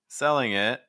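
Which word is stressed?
it. The stress falls on it. The speaker calls it wrong. "Why are you stressing it?"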